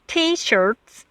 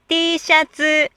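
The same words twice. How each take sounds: First: Said in the usual way. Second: T-shirts said as Japanese "shatsu", dropping the R; T-shirts with the R gone, in a Japanese katakana accent; Japanese katakana pronunciation. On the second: Shown as a demonstration. Teacher imitates a Japanese speaker saying T-shirts, in katakana pronunciation. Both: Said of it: "Most Japanese cannot hear vowels plus R".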